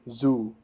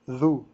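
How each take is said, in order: First: It starts with a buzzing z sound. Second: It starts with a voiced th sound. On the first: The speaker calls it wrong. "They say zoo. Zoo is incorrect" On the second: The speaker calls it right. "if you take your tongue and put it right there"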